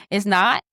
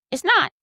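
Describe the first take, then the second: First: Said in the usual way. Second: It's not said higher, insisting on not; It's not raised and firm on not; emphatic. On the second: Real, not acted. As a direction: repeat It's not, pushing harder the second time.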